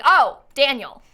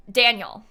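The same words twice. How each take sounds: First: Slow, louder imitated realization; mock the penny dropping, drawn out; sudden understanding. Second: Said in the usual way. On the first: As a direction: imitate a listener finally catching the name. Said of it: "And then they're like". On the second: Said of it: "So then he has to say".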